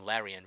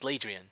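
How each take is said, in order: First: The name is said without a d sound. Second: The name is said with a d sound. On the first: The speaker calls it wrong. "I keep saying Larian" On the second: The speaker calls it right. "but it's actually Lad Ladrian"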